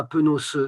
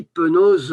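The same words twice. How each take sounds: First: "penos" said with a hard s sound at the end, penoss; wrong pronunciation. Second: "penos" said with a voiced z sound at the end, penoz; right pronunciation. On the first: Teacher showing the class the mistake, "penos" ending in s. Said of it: "et non pas". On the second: Teacher correcting the class, "penos" said ending in z. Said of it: "eh ben, on dit". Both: Shown as a demonstration.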